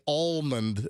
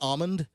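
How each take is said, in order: First: The L sound is clearly pronounced. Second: The L sound is left silent. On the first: "Some people say almond and pronounce the L" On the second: "I'm a silent L person. I say almond"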